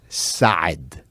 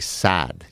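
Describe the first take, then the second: First: It has a throaty Arabic sound on the vowel. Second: It sounds like the plain English word sad. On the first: The speaker calls it right. "the proper way to say it" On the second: The speaker calls it wrong. "all Americans will say sad"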